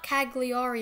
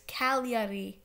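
First: The G sound is clearly pronounced. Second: The G sound is silent. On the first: The speaker calls it wrong. "It's not Cagliari" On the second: The speaker calls it right. "I don't know why the G isn't pronounced"

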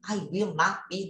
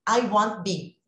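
First: The words 'will' and 'not' are said separately. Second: 'Will not' is contracted into one word. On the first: "se eu não faço a abreviação, fica grande" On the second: "para eu abreviar"

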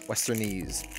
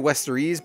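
First: It is said with an N before the ending. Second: It is said without an N before the ending. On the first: The speaker calls it right. "but I think it's with an N" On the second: The speaker calls it wrong. "I'll say Westerese"

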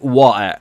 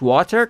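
First: It is said in a British accent. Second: It is said in a neutral standard teaching accent. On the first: "تلفظ بریتیشش" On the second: "تلفظ استاندارد آموزشیش"

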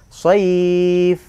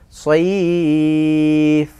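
First: The vowel is held for two beats. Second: The vowel is held for three beats. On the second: "atau tiga alif"

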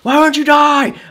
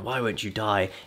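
First: It is said in an angry voice. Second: It is said in a mellow, calm voice.

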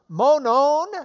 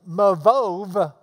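First: The word is said as monon. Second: The word is said as mavov. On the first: The speaker calls it right. "Think of that's M-O-N-O-N" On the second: The speaker calls it wrong. "So don't say Mavov"

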